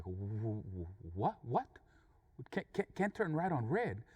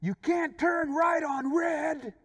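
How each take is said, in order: First: Stammering repeat, starting low; stunned confusion. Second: High, loud, drawn-out yell; shouted rebuke. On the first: Angry driver learns why the truck waited, stunned confusion. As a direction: stumble over the words in disbelief. Taken aback by the answer. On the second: Other driver shouts the road rule back, shouted rebuke. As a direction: yell it slowly, every word held up high. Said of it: "he told me". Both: Retold or imitated.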